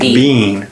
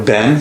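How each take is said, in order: First: The vowel is a long e, as in see. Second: The vowel is a short e, as in set. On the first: "pronounce it with a long E" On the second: "With a short E as in set"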